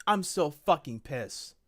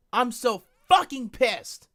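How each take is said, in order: First: Said in the usual way. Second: Slow, louder, boiling over; louder seething repeat. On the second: Real, not acted. Streamer telling his chat he's pissed, louder. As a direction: spit each word out, fuming.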